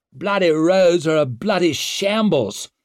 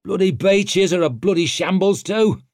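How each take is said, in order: First: High, loud, indignant lord; loud irritated outburst; snapped complaint. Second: High, loud disgruntled grunt; raised, exasperated grunt; grunted complaint. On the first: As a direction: snap it out in exasperation. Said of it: "snapped a lord". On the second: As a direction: grumble it loudly, fed up. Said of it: "grunted Antaup". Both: A narrator's reading.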